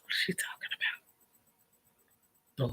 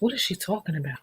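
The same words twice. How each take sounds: First: "What is she talking about?" fully whispered, no voice; breathy mock whisper to yourself; whispered aside. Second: "What is she talking about?" murmured much softer; soft aside. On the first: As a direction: whisper it like a secret joke to the camera. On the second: Acted. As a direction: mutter it to yourself. Mocking aside at the viewers.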